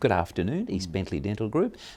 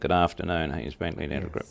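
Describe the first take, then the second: First: The greeting sounds warm and cheerful, smiling. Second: The greeting sounds flat and unenthusiastic. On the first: The caller feels welcomed. The speaker calls it right. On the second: The caller feels unwelcome. The speaker calls it wrong.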